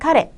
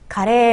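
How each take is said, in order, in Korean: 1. 그라는 단어의 억양이에요. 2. 카레라는 단어의 억양이에요. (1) "이런 억양입니다" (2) "이렇게 읽으면 카레라이스가 되고요"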